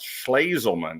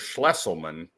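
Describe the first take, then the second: First: The middle syllable sounds like 'laze'. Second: The middle syllable sounds like 'less'. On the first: This is the way the family says the name. The speaker calls it right. "it's pronounced Schlazelman" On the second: This is the way the name was long said by mistake. The speaker calls it wrong. "That's how I pronounced it forever"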